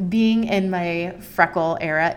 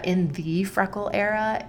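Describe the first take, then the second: First: Said in the usual way. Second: "the" said as a stressed "thee". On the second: Real, not acted. Upgrading her own freckle era to the era, stress on "the". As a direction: lean on "the", as in the one and only. Rewords "my" as emphatic "the.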